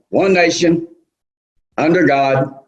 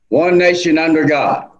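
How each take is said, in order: First: There is a pause after "nation". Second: It flows with no pause after "nation". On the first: The speaker calls it wrong. "what everybody does" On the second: The speaker calls it right. "here's how to say the pledge"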